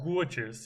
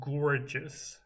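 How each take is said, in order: First: The R sound is dropped. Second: The R sound is pronounced.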